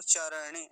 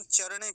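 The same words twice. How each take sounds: First: चरणे as "cha-ra-ne"; चरणे in three open syllables; Sanskrit pronunciation. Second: चरणे quick, as "char-ne"; चरणे squeezed into two syllables; Hindi pronunciation. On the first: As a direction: sound each vowel fully in चरणे. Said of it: "यहाँ संस्कृत है तो चरणे ऐसा बोलेंगे". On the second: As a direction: drop the vowel after र in चरणे. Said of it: "Hindi में हम चरणे कह देते हैं". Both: Shown as a demonstration.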